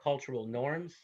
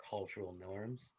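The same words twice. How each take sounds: First: Said in the usual way. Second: Cultural norms said softer and slower, rising on norms; quiet emphasis. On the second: Shown as a demonstration. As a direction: repeat Cultural norms softly and deliberately. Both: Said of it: "repeated as a slide heading".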